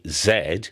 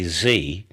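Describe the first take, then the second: First: The letter is said the British way, zed. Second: The letter is said the American way, zee.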